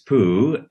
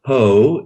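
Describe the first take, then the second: First: The vowel sounds like 'oo'. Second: The vowel sounds like 'oh'. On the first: The speaker calls it right. "it's poo" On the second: The speaker calls it wrong. "it's not po"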